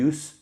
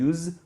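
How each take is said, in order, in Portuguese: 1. A palavra termina com um s sibilante, chiado. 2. A palavra termina com um z sonoro, vibrado. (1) "use com S" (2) "use com Z"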